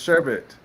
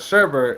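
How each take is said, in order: First: The second syllable has no R sound. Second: The second syllable has an added R sound. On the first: The speaker calls it right. "it's sherbet" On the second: The speaker calls it wrong. "it's not sherbet"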